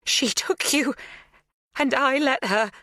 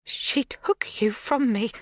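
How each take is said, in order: First: "She took you" higher and stronger, rising on "you"; louder. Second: Slow, unvoiced whisper of "She took you from me"; quiet before louder. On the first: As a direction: push the voice up as it breaks through. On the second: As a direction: breathe it out before finding voice. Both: A narrator's reading. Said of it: "Her voice is louder".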